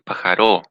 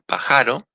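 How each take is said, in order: First: The stress is on the last syllable. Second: The stress is on the middle syllable. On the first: "en la última sílaba" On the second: "en esta A"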